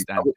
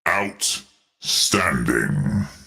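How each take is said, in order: First: It is said in a normal voice. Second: It is said in a put-on voice.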